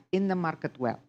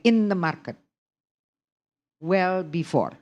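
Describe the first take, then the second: First: "in the market well" as one unbroken group; no break between "market" and "well"; WELL joined to MARKET. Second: "in the market", long pause, then "well before"; wrong break after MARKET. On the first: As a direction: run "well" straight on from "market". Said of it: "the well belongs to the market". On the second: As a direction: detach "well" from "market" with a gap. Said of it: "You can't say". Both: Shown as a demonstration.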